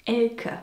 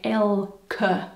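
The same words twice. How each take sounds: First: Said in the usual way. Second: "Elke" slowly in two parts, "el-keh"; sounded-out name. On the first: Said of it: "the name is actually pronounced". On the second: Shown as a demonstration. Teaching English speakers the German name "Elke", slowly sounded out as "el-keh". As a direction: stretch "Elke" out, with a clear final "keh". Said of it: "more like Elke".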